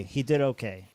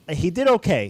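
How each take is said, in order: First: Said in the usual way. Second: He did okay, said loud with a sudden high jump; loud exclaim. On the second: Real, not acted. Reacting to a player's score.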